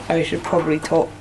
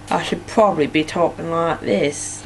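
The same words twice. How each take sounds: First: Said in the usual way. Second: Half-hearted go at a Norfolk accent; unconvincing Norfolk accent; attempted Norfolk accent. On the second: Shown as a demonstration. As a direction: try a Norfolk accent, not quite getting it. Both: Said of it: "I can't do a Norfolk accent".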